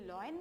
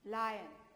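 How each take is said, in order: First: The first vowel sounds like 'law'. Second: The first vowel sounds like 'lie'. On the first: The speaker calls it wrong. "ये लॉयन नहीं है बेटा, बहुत सारे बच्चे इसको लॉयन बोलने की गलती करते हैं" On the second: The speaker calls it right.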